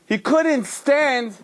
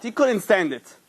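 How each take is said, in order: First: Couldn't drawn out slow and higher, falling; slow stress on couldn't. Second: Said in the usual way. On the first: A narrator's reading. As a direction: lean hard on couldn't, slowly. Repeats for emphasis.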